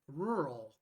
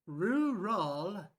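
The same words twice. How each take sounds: First: Said in the usual way. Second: "Rural" stretched into two heavy syllables, roo-rawl; learner's attempt at RURAL. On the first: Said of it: "practicing the word rural". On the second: Shown as a demonstration. Learner practicing with an app, "Rural" mispronounced as roo-rawl. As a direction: say "Rural" loud and over-rounded, ROO-RAWL. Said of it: "You might say".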